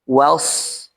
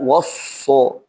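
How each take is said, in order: First: The w sound is light, not thickened. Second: The w sound is thick and heavy. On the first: The speaker calls it right. "huruf waw di sini bersifat istifal" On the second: The speaker calls it wrong. "Jangan huruf waw langsung diisti'lakan... Ini jelas kekeliruan"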